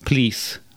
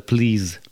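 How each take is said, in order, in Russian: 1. Слово заканчивается звуком 's'. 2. Слово заканчивается звуком 'z'. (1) "Характерная ошибка русских иммигрантов. Замена буквы «z» на «s»" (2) "вместо"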